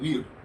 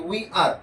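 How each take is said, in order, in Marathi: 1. हे एका आखूड, आकुंचित अक्षरासारखे म्हटले जाते. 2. हे दोन स्वतंत्र पूर्ण शब्द म्हणून म्हटले जाते. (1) "त्याचं प्रोनाउन्सिएशन होते वीर" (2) "वी प्लस आर म्हणजे वी आर"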